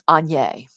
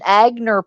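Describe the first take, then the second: First: The brand name is said in its usual form. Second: The brand name is said in an altered form. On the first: The speaker calls it right. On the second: The speaker calls it wrong.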